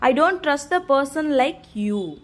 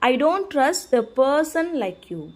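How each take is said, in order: First: The word you carries the main stress. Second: The word person carries the main stress. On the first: It is people like the listener who are not trusted. "யூங்கிறத stress பண்ணணும்" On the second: It is that kind of people who are not trusted. "அந்த ஆளுங்களை அப்படிங்கிறத stress பண்ணணும்"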